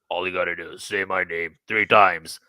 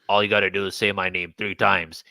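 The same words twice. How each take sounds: First: It is said in a much deeper voice. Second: It is said in a lighter voice.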